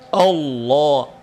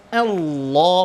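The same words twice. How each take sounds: First: The opening vowel is thick and heavy. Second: The opening vowel is thin and light. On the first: The speaker calls it wrong. "bukan Allah" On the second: The speaker calls it right. "A-nya tipis"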